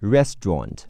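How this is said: It is said in a British accent. "英式发音是"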